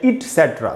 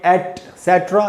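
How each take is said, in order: First: The first vowel is an i sound: it. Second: The first vowel is an e sound: et. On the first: "इट भी बोल सकते हैं" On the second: "एट भी बोल सकते हैं"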